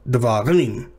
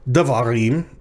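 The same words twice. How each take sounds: First: The stress falls on the last syllable. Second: The stress falls before the last syllable. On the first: The speaker calls it right. "but davarim. Right? So rim is the tonic syllable" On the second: The speaker calls it wrong. "Not davarim"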